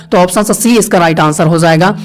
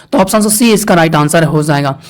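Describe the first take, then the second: Both takes have the same delivery.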